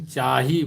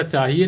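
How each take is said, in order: First: "चाही" clipped to two syllables, ending on a long i; "चाही" with a falling close; short Kurukh chahi. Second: "चाहिए" said in full, three syllables, as in Hindi; "चाहिए" with its full Hindi ending; full Hindi chahiye. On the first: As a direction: say "चाही" the Kurukh way, without the final e. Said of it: "लेकिन चाही बोलते हैं". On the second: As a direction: say "चाहिए" the complete Hindi way, the form to avoid. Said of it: "इसको पूरा चाहिए नहीं बोलते हैं". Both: Shown as a demonstration.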